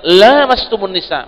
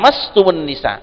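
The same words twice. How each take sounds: First: The vowel after the first L is long. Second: The vowel after the first L is short. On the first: It figuratively means sexual intercourse. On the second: It means physical touching of the skin.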